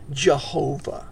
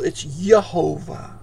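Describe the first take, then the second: First: The name begins with a J sound. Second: The name begins with a Y sound. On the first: This is how English speakers say it. "That's how we pronounce his name if we're English-speaking peoples. We use a J" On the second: This is how Hebrew speakers say it. "If we are Hebrew-speaking people"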